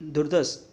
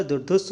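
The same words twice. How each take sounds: First: दुर्दस ending in a plain das; wrong pronunciation. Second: दुर्धुस with an aspirated dhus; correct pronunciation. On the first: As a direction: say दुर्दस with no aspirated dh. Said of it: "दुर्दस नहीं होता". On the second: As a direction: end दुर्धुस on a breathy dhus. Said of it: "दुर्धुस होता है". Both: Shown as a demonstration.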